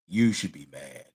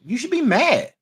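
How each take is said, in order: First: It is said in a deep voice. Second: It is said in a normal voice.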